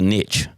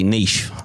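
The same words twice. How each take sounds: First: The word is said the plain, small-town way. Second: The word is said the fancy, refined way. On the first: This is how it was said where the speaker grew up. "growing up in Smithville, we'd say it's a niche" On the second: This sounds more expensive. "the fancy way is to say niche"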